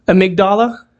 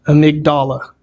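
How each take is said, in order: First: "Amygdala" rising at the end like a question. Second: "Amygdala" lower, falling at the end; confirming. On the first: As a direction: check "Amygdala" with an upturned, unsure ending. Checking how the word is pronounced. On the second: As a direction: settle "Amygdala" with a firm downward ending. Settles on the pronunciation. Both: Real, not acted.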